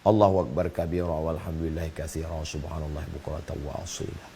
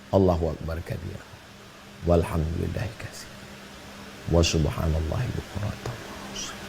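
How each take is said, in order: First: It is said quickly in one breath. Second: It is said slowly and unhurried.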